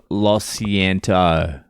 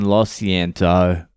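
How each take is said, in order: First: "Lo siento" drawn out slowly in a tourist's Spanish; put-on Spanish "Lo siento". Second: "Lo siento" again, slow and deliberate; put-on Spanish "Lo siento". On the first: To the police officer at the car window, slow tourist "Lo siento". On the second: Apologising to the police through the window, slow "Lo siento". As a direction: repeat "Lo siento" slowly, earnest tourist. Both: Shown as a demonstration. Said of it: "I give them the old".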